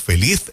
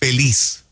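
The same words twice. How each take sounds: First: The final consonant sounds like a th. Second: The final consonant sounds like an s. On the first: This sounds like someone from Spain. "que sea evidente el, el énfasis en la Z como suena" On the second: This is how Puerto Ricans say it. "que así es que la pronunciamos"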